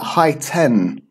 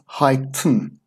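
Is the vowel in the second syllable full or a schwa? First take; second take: full; schwa. First: The second syllable has a full vowel. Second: The second syllable has a reduced schwa vowel. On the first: The speaker calls it wrong. "it's not high ten or high tin" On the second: The speaker calls it right. "It's pronounced high tin, un, un, and we have that schwa sound"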